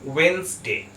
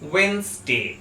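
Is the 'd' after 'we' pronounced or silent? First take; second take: silent; silent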